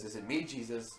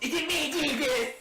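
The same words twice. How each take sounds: First: It is asked in a plain, sincere tone. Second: It is said in a sassy, mocking imitation.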